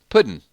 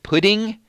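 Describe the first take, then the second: First: It ends in -in, Georgia style. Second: It ends with a full -ing sound.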